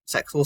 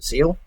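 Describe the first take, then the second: First: The name is said with a ks sound. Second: The name is said without a ks sound. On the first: "people um, pronounce it with the X" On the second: "properly known to as"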